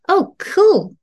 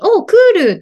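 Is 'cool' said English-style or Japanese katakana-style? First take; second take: English-style; Japanese-style. First: Cool is said with an English-style rounded vowel. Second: Cool is said with Japanese katakana-style vowels. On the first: The speaker calls it right. "英語で言いたいときは" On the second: The speaker calls it wrong. "クールとか言ってる人いないですよね"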